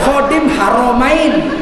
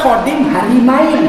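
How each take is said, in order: First: The second word is said with o after r. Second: The second word is said with i after r. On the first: Guardian of the two holy cities. The speaker calls it right. "Dia menjaga kota suci" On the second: Guardian of two wives. The speaker calls it wrong. "dibaca Khodim Harimain"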